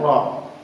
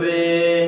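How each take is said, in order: First: The vowel is a plain open a. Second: The vowel is tilted toward e. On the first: The speaker calls it wrong. "Tidak boleh dibaca" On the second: The speaker calls it right. "harus dibaca dengan cara imalah"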